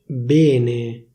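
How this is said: The stressed E is pronounced closed. This is how people in Milan say it. "a Milano si dice bene"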